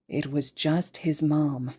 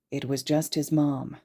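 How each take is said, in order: Both takes have the same delivery.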